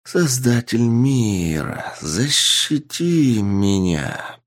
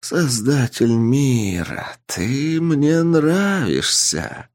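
First: Slow, otherworldly inhuman voice; eldritch horror. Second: Slow, high inhuman voice; an ancient being pleased and amused; eldritch horror. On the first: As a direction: speak like an ancient being from the depths. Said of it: "раздался голос ... не человеческий голос". (нечеловеческий потусторонний голос) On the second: The entity replies, amused. (медленный высокий потусторонний голос) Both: Acted.

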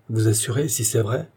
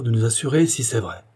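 First: "si c'est vrai" lifted into a rising question; indignant echoed question. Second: Said in the usual way. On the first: A narrator's reading. Isidore challenges the procureur, "Vous assurer si c'est vrai" exclaimed as a question. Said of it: "s'écria Isidore". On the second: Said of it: "dit le procureur de la commune".

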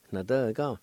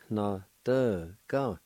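First: "Na, de, ga" run together as one word; connected take of "Na, de, ga"; joined-up pronunciation. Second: Syllable-by-syllable demo. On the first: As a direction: blend "Na, de, ga" smoothly. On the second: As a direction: sound out "Na, de, ga" piece by piece. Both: Shown as a demonstration. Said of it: "It's pronounced like this".

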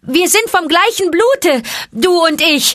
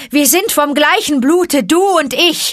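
First: High, loud ringing call; snake call. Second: High, loud howled cry; snake call howled. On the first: Mowgli calls to the snakes, high and loud. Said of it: "den Schlangenruf gebend". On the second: Mowgli howls the snake cry for help, high and loud. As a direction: howl it into the night. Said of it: "heulte er ... den Hilferuf der Schlangen". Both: A narrator's reading.

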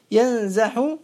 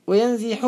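First: ينزح said yanzaḥu; fatha on ينزح. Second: وينزح said wa-yanziḥu; kasra on وينزح. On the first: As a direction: open the z of ينزح with an a. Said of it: "بالفتح المقيس". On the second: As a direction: follow the z of وينزح with an i. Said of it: "بالكسر المشهور". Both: Shown as a demonstration.

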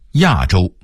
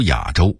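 First: Said in the usual way. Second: 亚洲 as yǎzhōu, 亚 dipping; low dipping tone on 亚 in 亚洲; Beijing-style 亚洲 without a falling 亚; Beijing dialect reading. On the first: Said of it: "北京话读亚洲". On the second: Shown as a demonstration. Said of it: "北京话读".

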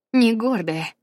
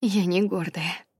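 First: «не» громче и выше, с нажимом; ударить на «не» в «не гордая»; stress on НЕ. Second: Said in the usual way. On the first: Shown as a demonstration. (с нажимом на «не»: «не гордая»)

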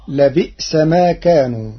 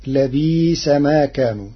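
First: Said in the usual way. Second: "لبئس" softened to labiisa, hamza turned long i; no glottal stop in "لبئس", stretch the i; Warsh reading. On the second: Shown as a demonstration. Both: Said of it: "بالإبدال تخفيفا".

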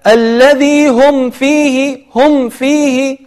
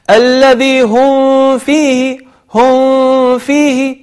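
First: Slow chant, short distinct m in هم before فيه; clear meem. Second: Slow chant, هم blurred into a held nasal hum before فيه; hidden meem. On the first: Teacher showing the correct reading, meem pronounced clearly. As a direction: close هم fully with no held hum, then فيه. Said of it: "فالميم هنا مظهرة". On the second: Teacher imitating people's mistake, meem hidden with a long hum. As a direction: drag and mask the m of هم into the f. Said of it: "فيخفي الميم، وهذا خطأ". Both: Shown as a demonstration.

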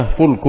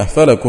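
First: فلك said fulk, u after the f, l closed; فلك بضم الفاء، "فُلْك"; fulk with damma. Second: فلك said falak, a after f and a after l; فلك بفتحتين، "فَلَك"; falak with two fathas. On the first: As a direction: say فلك as one syllable, fulk. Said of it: "بضم الفاء". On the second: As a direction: voice فلك as two open syllables, fa-lak. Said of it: "بفتحتين". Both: Shown as a demonstration.

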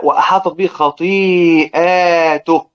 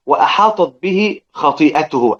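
First: Slow recitation with a long a in "خطيئاته"; plural reading. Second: Slow recitation of "خطيئته" with no long a, the singular; singular reading. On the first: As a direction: draw out the "ئا" of "خطيئاته" to mark the plural. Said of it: "الإفراد الجمع". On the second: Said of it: "أدى التوحيد". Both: Shown as a demonstration.

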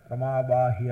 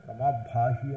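First: Unaspirated ప్రమాబాహి with a plain b sound; wrong pronunciation. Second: ప్రమాభాహి with a breathy aspirated bh; correct aspirated pronunciation. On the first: Teacher showing students the wrong ప్రమాబాహి, plain unaspirated b. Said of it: "అనకూడదు". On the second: Teacher giving students the correct ప్రమాభాహి, aspirated bh. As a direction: push air on the భా in ప్రమాభాహి. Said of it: "ప్రమాభాహి అని అంటే". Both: Shown as a demonstration.

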